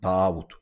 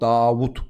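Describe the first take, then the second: First: The name is said with a lengthened vowel. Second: The name is said with short vowels. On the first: This is the original Arabic form. "okunuşu Arapça. Uzatma var burada" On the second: This is the usual Turkish form. "Biz Davut diyoruz"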